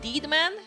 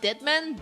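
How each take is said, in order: First: The first vowel is long, like 'deed'. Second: The first vowel is short, like 'dead'. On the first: The speaker calls it right. "is that how you pronounce it?" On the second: The speaker calls it wrong. "Not Deadman"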